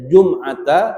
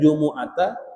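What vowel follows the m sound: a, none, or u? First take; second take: none; u. First: The m is followed by no vowel. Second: The m is followed by an u vowel.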